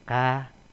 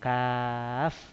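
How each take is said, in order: First: It is read as the short syllable ka. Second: It is read as the full letter name kaf. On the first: The speaker calls it wrong. "Bukan dibaca harokatnya" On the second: The speaker calls it right. "Tapi dibaca kaf"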